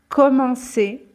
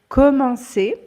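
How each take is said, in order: No difference in how they are said.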